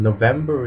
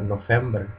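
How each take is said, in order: First: The middle consonant is a V sound. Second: The middle consonant is an F sound.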